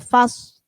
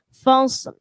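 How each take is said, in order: First: The final L sound is dropped. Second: The final L sound is clearly pronounced. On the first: The speaker calls it wrong. "jangan sampai ketika kita wakaf lamnya terti, tertinggal" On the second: The speaker calls it right. "Di situ ada lam"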